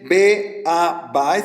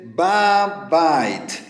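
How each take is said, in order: First: The preposition is a separate syllable before the article. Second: The preposition merges with the article into one syllable. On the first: The speaker calls it wrong. "No se dice be a bait" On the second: The speaker calls it right. "sino se dice ba bait"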